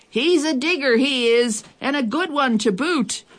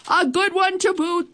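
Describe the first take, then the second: First: Pirate yelling to crew. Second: Much higher chorus of pirates; crew agreeing. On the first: Head pirate calls back to his crew, yelling. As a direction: call it back across to the crew. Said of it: "he yelled back to his crew". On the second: The crew agrees with their captain, high chorus. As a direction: chime in as the whole crew. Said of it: "the others all agreed". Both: A narrator's reading.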